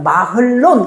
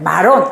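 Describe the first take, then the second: First: An h sound is heard before the l. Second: No h sound is heard before the l. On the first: "원래 읽으려면 마흘론 이렇게 해야 돼요" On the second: "여기서 그냥 마론 이렇게 해놓은 거예요"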